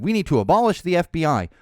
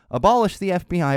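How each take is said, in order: First: Loud mock rally chant; a touch of mocking outrage; mocking MTG. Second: Loud mock rally chant, repeated; chanted, a touch of mocking outrage; mocking MTG chant. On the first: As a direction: belt it like a protest slogan. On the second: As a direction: chant the slogan again. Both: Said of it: "has said".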